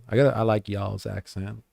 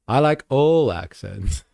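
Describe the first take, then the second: First: Put-on American "y'all's"; American accent. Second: Said in the usual way. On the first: Shown as a demonstration. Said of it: "I gotta read American there". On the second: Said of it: "Sorry, I gotta read American there".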